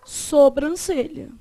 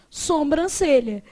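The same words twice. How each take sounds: First: "Sobrancelha" with oral SO, no M; correct pronunciation. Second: "sobrancelha" said as "sombrancelha"; wrong pronunciation. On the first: Teacher giving the correct form, "Sobrancelha" with oral SO. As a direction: keep SO clean and oral in "Sobrancelha". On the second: Teacher showing the miswriting, "sobrancelha" with nasal SOM. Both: Shown as a demonstration. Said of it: "embora o certo seja o quê?".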